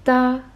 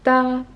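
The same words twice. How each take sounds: The two takes are said the same way.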